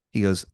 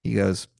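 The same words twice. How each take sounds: The two takes are said the same way.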